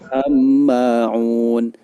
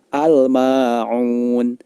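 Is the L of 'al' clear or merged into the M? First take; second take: merged; clear. First: The L merges into a doubled M sound. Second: The L is clearly pronounced before the M. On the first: The speaker calls it wrong. "Tidak boleh dibaca" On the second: The speaker calls it right. "cara membacanya adalah ... Alnya dibaca dengan jelas"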